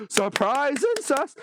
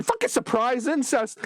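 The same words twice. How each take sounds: First: "Surprise incest." stretched out slow, weight on "incest"; slow emphatic repeat. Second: Said in the usual way. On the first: Real, not acted. Reviewer repeats the twist for emphasis, slowly.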